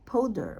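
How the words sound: The word has an English pronunciation. The speaker calls it wrong. "when you read it as an English word, you would sound like powder"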